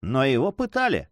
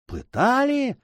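First: Said in the usual way. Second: Shocked, very high echoing question; crying out. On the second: A narrator's reading. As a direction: echo PЫТАЛИ high, in disbelief. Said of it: "вскричали беглецы". (потрясённый вскрик)

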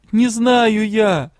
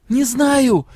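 First: Slow, higher, louder "Не знаю я"; weeping girl repeats herself to the secretary; tearful drawn-out cry. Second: Much higher, louder cry of "Не знаю"; weeping girl snaps at the secretary; tearful outburst. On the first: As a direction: stretch it out, close to sobbing. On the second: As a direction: blurt it through tears. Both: A narrator's reading. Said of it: "По щекам опять потекли слёзы".

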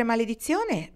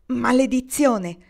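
First: Said in the usual way. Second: Maledizione! shouted out slow and loud; exclaimed curse. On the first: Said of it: "le suggerì Marnie". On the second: A narrator's reading. Kendra curses her torn skirt, exclaiming loudly. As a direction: throw out Maledizione! as an exasperated curse. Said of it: "esclamò Kendra".

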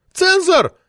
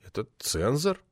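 First: "Цензор!" shrieked very high and loud; indignant lady screaming "Цензор!". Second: Quiet mumbled "цензор", falling away; nervous young editor mumbling "цензор". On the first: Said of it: "взвизгнула Метелина". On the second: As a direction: mumble "Это цензор" sheepishly. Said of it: "промямлил я". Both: Acted.

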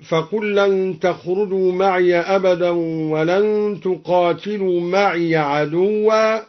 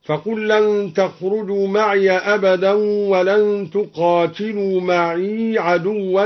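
First: Said in the usual way. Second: Second "معي" as long ma'ee, first stays ma'iya; second ya vowelless. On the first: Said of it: "أسكن الدوري الياء الثانية". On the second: Shown as a demonstration. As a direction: end the second "معي" on a long ee before "عدوا". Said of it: "أسكن الدوري الياء الثانية من معي". (إسكان ياء "معي" الثانية)

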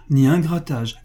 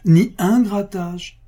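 First: Said in the usual way. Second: "ni un grattage" much higher, louder and drawn out slowly; emphatic repeat. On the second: A narrator's reading. Clerk repeats to Pascal for proud emphasis, stretched and high. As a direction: lean hard on "ni un grattage", stretching each word. Clerk insists books are clean.

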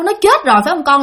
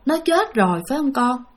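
First: Said in the usual way. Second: Soft sad question. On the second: Retold or imitated. Grandfather softly asks his daughter if her sister is dead. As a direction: ask it as if you already know.

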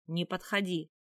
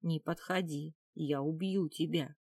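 First: Sharp, voiced warning; urgent warning. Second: Slow, contained threat; through gritted teeth. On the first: Captive just broken free of attacker, urgent warning. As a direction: push the warning out with alarm. First warning, contrasts with later hiss. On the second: Captive backing away with a knife, tight threat. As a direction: hold it in and force it through the teeth. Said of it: "процедила сквозь зубы". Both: A narrator's reading.

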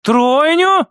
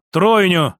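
First: High, rising question; stunned woman checking what she heard; incredulous echo. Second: Plain, falling, assured statement; settled answer to a disbelieving question; confident confirmation. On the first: Acted. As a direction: repeat it upward in disbelief. Mother asks again, incredulous. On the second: A narrator's reading. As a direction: confirm it evenly and firmly. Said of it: "уверенно подтвердил я".

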